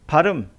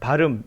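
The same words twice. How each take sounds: First: The word is said carefully, sound by sound. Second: The sounds run together in a linked form. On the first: This is the word as it is meant. "발음 이라고 하지만" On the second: This is only how it happens to sound. "이렇게 가르치면 안 되죠"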